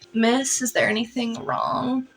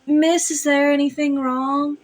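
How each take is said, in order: First: It is said with a creaky vocal fry. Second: It is said in a smooth, non-creaky voice.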